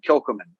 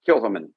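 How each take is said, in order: First: The middle C sound is clearly pronounced. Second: The middle C sound is almost silent. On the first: The speaker calls it wrong. "I've always called it" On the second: The speaker calls it right. "the C is almost silent"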